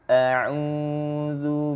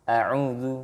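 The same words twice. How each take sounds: First: The first vowel is held overly long. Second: The first vowel is cut very short. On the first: "ini ainnya dibaca panjang lebih dari dua dua harokat" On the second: "harusnya dia baca cuma satu"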